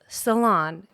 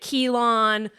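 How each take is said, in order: First: The word begins with an S sound. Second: The word begins with a K sound. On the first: The speaker calls it right. "But it's Ceylon" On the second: The speaker calls it wrong. "Is it Keylon?"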